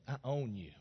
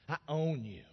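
Both takes have the same delivery.

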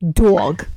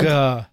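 First: It is said in a New Jersey accent. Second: It is said in a plain accent.

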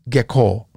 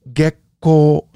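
First: The k follows the vowel with no gap. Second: A short silent gap comes before the k. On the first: The speaker calls it wrong. "It's not gekko" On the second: The speaker calls it right. "and there is a little space there"

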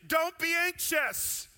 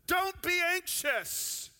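First: It is said with a sense of urgency. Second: It is said with a sense of urgency.

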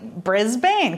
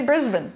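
First: It is said the American way. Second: It is said the Australian way. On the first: The speaker calls it wrong. "for us Americans, it looks like Brisbane" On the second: The speaker calls it right. "No, say Brisbane"

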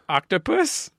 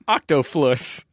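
First: The middle sound is a plain 'p' sound. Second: The middle sound is an 'fl' sound. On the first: This is how the word is properly said. The speaker calls it right. "say it correctly now?" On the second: This is how a small child says the word. The speaker calls it wrong. "he no longer says octoflus"

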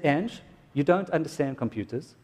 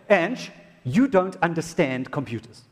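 First: It is said in a calm, sincere tone. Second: It is said in a mocking, condescending tone. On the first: The speaker is simply stating a fact. The speaker calls it right. "I wasn't being facetious" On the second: The speaker is belittling her. The speaker calls it wrong. "I didn't even say it like that"

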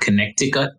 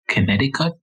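First: The middle c sound is clearly pronounced. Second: The middle c sound is left silent. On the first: The speaker calls it wrong. "not Connecticut" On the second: The speaker calls it right. "So it's Connecticut"

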